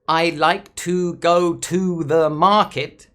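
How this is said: Every word in the sentence is stressed equally. The speaker calls it wrong. "That would be stressing every word in the sentence"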